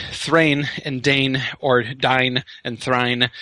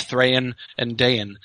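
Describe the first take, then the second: First: "Thrain", "Dane", "Dine" and "Thrine" each as one syllable, slow; the mistaken one-syllable "Thrain and Dane"; wrong one-syllable way. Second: "Thrain" as Thra-in and "Dain" as Da-in, slow and deliberate; "Thrain and Dain" carefully split into syllables; two syllables. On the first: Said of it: "So it's not". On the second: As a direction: give "Thrain and Dain" two beats each, slowly. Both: Shown as a demonstration.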